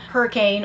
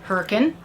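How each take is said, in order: First: It is said the general way. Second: It is said the local way.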